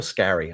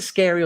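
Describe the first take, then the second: First: "Scary" with a short a, as in "carry"; short-a Scarry. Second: "Scary" with the vowel of "air"; Scary like frightening. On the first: Host unsure of Richard Scarry's name, "Scary" as SKA-ree. Offers the other pronunciation. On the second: Host unsure of Richard Scarry's name, "Scary" as SKAIR-ee. Asks which pronunciation is right. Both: Shown as a demonstration.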